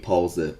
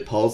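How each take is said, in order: First: The word is said the German way. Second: The word is said the English way. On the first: "ما توی اینجا ... میگیم" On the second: "به جای"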